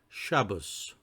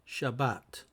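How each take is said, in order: First: The word ends with an s sound. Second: The word ends with a t sound.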